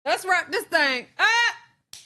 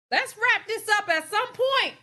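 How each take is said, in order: First: Sung, slow, drawn-out singsong with a rise at the end; sung, singsong wrap-up. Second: High and loud, pushing to move on; loud wrap-up call. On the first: Host chanting to viewers to end the topic, slow singsong. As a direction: stretch it out like a little chant. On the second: Host urging viewers to end the topic, loud and high. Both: Real, not acted.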